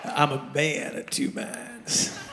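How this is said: It is said with a playful, ironic wink.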